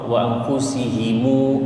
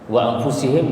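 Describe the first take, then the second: First: The m is followed by a lengthened u vowel. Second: The word ends on a closed m sound.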